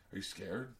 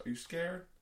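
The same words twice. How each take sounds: First: Low, quiet challenge; low-key challenge. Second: Higher, smiling needle; smiling taunt. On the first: Smaller guy at the car door, quiet challenge. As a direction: put the question low and softly. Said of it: "comes up to my ... is like". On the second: Man teasing the nervous driver, smiling taunt. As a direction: ask it higher, through a smile. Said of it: "and he's smiling". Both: Retold or imitated.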